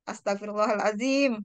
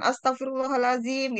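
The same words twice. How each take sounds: First: Said in the usual way. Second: Higher-pitched mock-angry exclamation; angry intonation. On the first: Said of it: "kalau kita intonasiin". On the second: Shown as a demonstration. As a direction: exclaim it as if cross, pitch lifted. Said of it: "kalau misalnya lagi marah kan". (intonasi marah, nada lebih tinggi)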